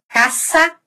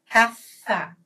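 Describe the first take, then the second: First: "Casa" with a plain s, rising; seseo. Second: "casa" with th for s, falling; tongue between the teeth on "casa"; ceceo. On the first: Teacher contrasting both regions, plain s. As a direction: hiss the s of "Casa". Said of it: "vão dizer". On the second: Teacher contrasting both regions, th sound. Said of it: "Em Madrid". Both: Shown as a demonstration.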